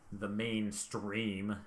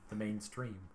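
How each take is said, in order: First: It is said with heavy, sneering scorn. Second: It is said plainly, without much scorn. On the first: The speaker calls it right. "There we go" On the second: The speaker calls it wrong. "I didn't say that with enough scorn"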